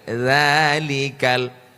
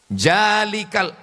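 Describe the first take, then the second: First: The word begins with a z sound. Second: The word begins with a j sound. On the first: The speaker calls it right. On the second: The speaker calls it wrong.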